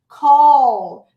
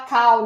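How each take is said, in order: First: It ends with a clear L sound. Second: It ends without an L, like 'cow'. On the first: The speaker calls it right. "esse call é um L, então a língua tem que ir atrás aqui do dente da frente" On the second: The speaker calls it wrong. "muita gente fala cal, né? ... Sabe o que é cal? Vaca"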